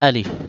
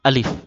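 No difference in how they are said.

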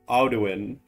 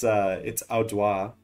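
First: The name is read as spelled in English. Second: The name ends in a 'wa' sound. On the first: The speaker calls it wrong. "In English, you just read it and it's like" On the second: The speaker calls it right. "But it's Audwa is how you say that"

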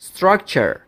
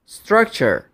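The two takes are said the same way.

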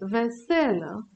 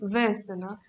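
First: The stress is on the second syllable. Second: The stress is on the first syllable. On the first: It is the noun meaning dishes. "substantivul cu accent pe al doilea E" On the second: It is the adjective meaning cheerful. "adjectivul veselă, cu accent pe E"

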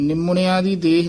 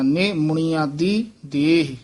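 First: The first syllable is a short 'ni' sound. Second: The first syllable is a lifted 'ne' sound. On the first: The speaker calls it wrong. "ਨਿਮੁਣਿਆ ਦੀ ਦੇਹ ਨਹੀਂ ਕਹਿਣਾ, ਕਈ ਨਿਮੁਣਿਆ ਦੀ ਇਉਂ ਬੋਲ ਜਾਂਦੇ ਨੇ, ਉਹ ਗਲਤ ਹੈ" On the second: The speaker calls it right. "ਨੰਨੇ ਤੋਂ ਚੱਕ ਕੇ ਬੋਲਣਾ ਹੈ"

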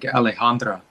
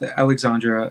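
First: The name is said in its original way. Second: The name is said in an Americanized way. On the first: The speaker calls it right. "the actual pronunciation is" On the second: The speaker calls it wrong. "I pronounce her name like that"

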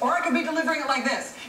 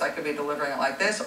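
First: It is said loudly, almost yelling. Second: It is said calmly at normal volume.

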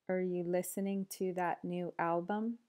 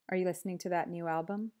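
First: The sentence is spoken at a slower pace. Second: The sentence is spoken at a fast pace. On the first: "then slower" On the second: "then fast"

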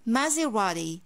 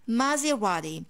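First: The T is soft, like a quick D. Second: The same.

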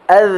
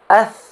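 First: The final consonant is voiced with vocal buzz. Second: The final consonant is voiceless, only breath. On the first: The speaker calls it right. "terdapat getaran" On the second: The speaker calls it wrong. "tidak ada getaran"

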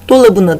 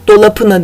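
First: The consonant before the suffix is b. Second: The consonant before the suffix is p. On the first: The speaker calls it right. "dolabına demişim" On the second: The speaker calls it wrong. "Dolapına dememişim"

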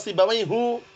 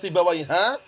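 First: The name ends with a u vowel. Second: The name ends with an a vowel. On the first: "nggak pernah dibaca Sibawaihu" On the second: "nggak pernah dibaca Sibawaiha"

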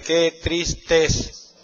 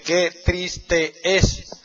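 First: The last two vowels merge into one syllable. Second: The last two vowels are said as separate syllables. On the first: The speaker calls it right. "tú dices qué triste es. Una sílaba nada más" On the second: The speaker calls it wrong. "no dices qué triste es"

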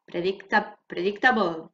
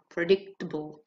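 First: It is said with a Spanish-sounding accent. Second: It is said with an English accent. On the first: The speaker calls it wrong. "Don't sound so Spanish" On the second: The speaker calls it right.

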